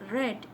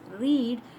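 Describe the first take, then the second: First: It has the vowel of the past tense form. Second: It has the vowel of the present tense form. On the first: The action happened in the past. "When you pronounce it as read, it is past tense" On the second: The action happens now or habitually. "When you pronounce it as read, it is present tense"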